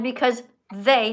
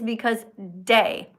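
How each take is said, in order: First: The word starts with a th sound. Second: The word starts with a d sound. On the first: The speaker calls it right. "stick your tongue out between your teeth" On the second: The speaker calls it wrong. "what I hear you saying is because day, like the daytime"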